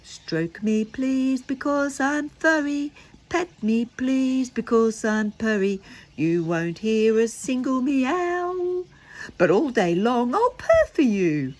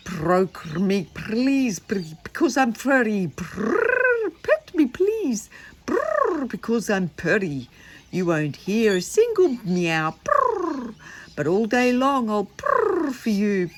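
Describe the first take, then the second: First: Sung, made-up tune. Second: High, loud purring cat voice; a storyteller purring the song for the children. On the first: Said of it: "I wonder if I can make up a tune". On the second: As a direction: sing it like a contented cat. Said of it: "I did it in a purr voice". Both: Shown as a demonstration.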